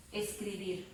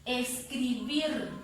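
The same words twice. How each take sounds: First: Said in the usual way. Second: Escribir slowly sounded out, weight on BIR; slow teaching demo of Escribir, stressed BIR; stress on final syllable. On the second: Shown as a demonstration. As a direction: draw out Escribir and press on the last syllable. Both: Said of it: "ahí está la fuerza de voz".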